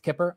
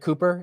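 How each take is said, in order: First: The first vowel is a short 'i' sound. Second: The first vowel is a long 'oo' sound. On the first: The speaker calls it right. "It's Kipper" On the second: The speaker calls it wrong. "I said Cooper"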